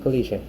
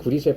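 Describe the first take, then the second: First: It has the standard 'keullishe' pronunciation. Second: It has a Japanese-influenced 'gurishwe' pronunciation. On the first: "클리셰 들어봤어요?" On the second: "일본어에서 그래서 발음이 좀 이상하긴 한데"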